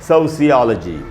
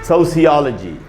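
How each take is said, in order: The two takes are said the same way.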